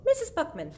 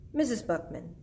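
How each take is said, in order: First: Put-on high-pitched boy character voice; William Spiver. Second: Near-usual voice, before the character switch; wrong character voice. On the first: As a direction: lift the voice right up into the boy's register. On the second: Acted. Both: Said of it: "Sorry, wrong voice".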